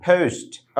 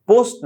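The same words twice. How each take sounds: First: পোস্ট with puffed p and gliding "ou"; aspirated, diphthonged পোস্ট; corrected English pronunciation. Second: পোস্ট with a plain short o; unaspirated পোস্ট, no vowel glide; common mispronunciation. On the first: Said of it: "উচ্চারণটা হবে ফ". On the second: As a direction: say পোস্ট the everyday Bangla way. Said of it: "পোস্ট না". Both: Shown as a demonstration.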